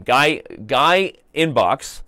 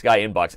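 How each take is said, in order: First: Slow, drawn-out Guy, Guy Inbox with the weight on Guy; wrong emphasis. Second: Said in the usual way. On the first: Shown as a demonstration. Host mispronouncing a chat name with the stress on Guy. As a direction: lean hard on Guy and stretch it out. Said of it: "I placed the wrong emphasis". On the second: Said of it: "Guy, instead of Guy Inbox".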